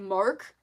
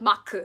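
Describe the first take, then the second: First: It is said English-style, with an r sound. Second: It is said Korean-style, without an r sound.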